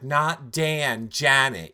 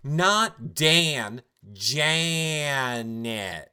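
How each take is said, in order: First: It is said at normal speed. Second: It is said slowly and deliberately.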